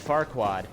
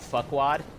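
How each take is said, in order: First: The R in the first syllable is pronounced. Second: The R in the first syllable is dropped.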